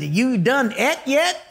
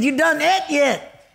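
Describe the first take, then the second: First: Lightly imitating a rural Montana cook's redneck accent. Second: A stronger redneck voice, pitched well higher and stretched; a hammed-up country cook repeating his question; redneck accent. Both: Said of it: "they talk with an accent like this".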